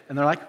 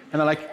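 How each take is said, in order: Both takes have the same delivery.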